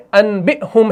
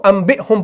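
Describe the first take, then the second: First: انبئہم said "an-bi-hum" with N; انبئہم as spelt, n before b; original noon form. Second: انبئہم said "am-bi-hum"; انبئہم with m before b; read with meem. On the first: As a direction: sound the written N in انبئہم. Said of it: "یہ اصل میں انبئہم ہے". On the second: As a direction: turn the N of انبئہم into M. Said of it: "ہم اس کو انبئہم پڑھتے ہیں". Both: Shown as a demonstration.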